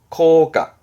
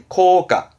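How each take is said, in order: No difference in how they are said.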